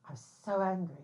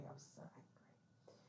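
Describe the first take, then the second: First: Said in the usual way. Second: Whispered under the breath. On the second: Real, not acted. Retelling her anger about the editor, whispered. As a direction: breathe it out with no voice, still fuming.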